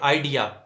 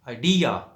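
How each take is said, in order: First: The stress is on the first syllable. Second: The stress is on the second syllable. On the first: The speaker calls it wrong. "हमारे यहाँ आमतौर पर कहा जाता है" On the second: The speaker calls it right. "डी पे stress है"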